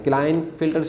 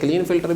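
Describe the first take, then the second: First: The first vowel sounds like 'eye'. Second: The first vowel sounds like 'ee'. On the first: "pronounce भी करते हैं" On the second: "भी sometime pronounce करते हैं"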